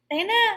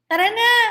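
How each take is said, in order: First: The phrase is said in a shortened form. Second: The phrase is said in its full form. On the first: "Yung salitang tara na, nagiging tena" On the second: "Tingnan niyo yung salitang tara na"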